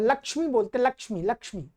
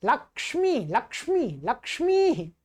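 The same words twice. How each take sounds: First: "लक्ष्मी" said with a plain श sound, imitating the mistake; common wrong form. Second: Careful "लक्ष्मी", क्ष fully sounded; correct pronunciation. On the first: Teacher imitating how many people say it wrongly. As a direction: lightly mimic the wrong "लक्ष्मी". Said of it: "अनेक लोग इसका गलत बोल". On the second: Teacher giving pupils the correct form after the mistake. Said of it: "इसका गलत बोल". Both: Shown as a demonstration.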